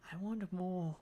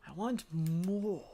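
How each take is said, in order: First: Said in the usual way. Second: Slow, drawn-out MORE, mock greedy; hammed-up demand with a long "more"; exaggerated demand. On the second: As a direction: stretch "more" out long and push it.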